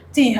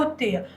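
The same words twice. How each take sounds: First: "التيه" with a long ee, tih; alternative pronunciation. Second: "التيه" with an ay vowel, teh; alternative pronunciation. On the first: Teacher giving the plateau's name, "التيه" said tih. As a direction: say "التيه" as teeh. Offers two pronunciations joined by "or. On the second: Teacher offering the name's other form, "التيه" said teh. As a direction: say "التيه" as tayh. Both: Shown as a demonstration.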